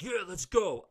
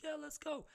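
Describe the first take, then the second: First: High, louder cocky dare; hammed-up bring-it-on challenge; mock fight-ready. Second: Much higher, softer excited yes; lightly voiced eager boy; eager kid. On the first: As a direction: play it like you're ready to brawl. Hypothetical fight acceptance. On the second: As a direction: voice a happy kid ready to play.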